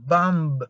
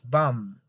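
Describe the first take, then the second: First: A B sound is heard after the M. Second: The word ends on the M sound. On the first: The speaker calls it wrong. "You don't have to say bumb. No" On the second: The speaker calls it right. "it's bum. Only bum"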